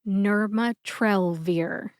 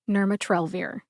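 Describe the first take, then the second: First: The word is spoken slowly, syllable by syllable. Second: The word is spoken quickly, at normal speed. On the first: "when I say it slowly" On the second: "And quickly"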